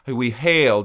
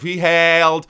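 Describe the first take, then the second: First: The vowel in 'hailed' leans toward an E sound. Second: The vowel in 'hailed' is plain and more open. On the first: "she went a little bit toward an E" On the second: "instead of"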